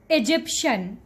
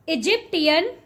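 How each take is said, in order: First: The word ends in a shen sound. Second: The word does not end in a shen sound. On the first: The speaker calls it right. "Shen, shen" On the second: The speaker calls it wrong. "You are completely mispronouncing this word"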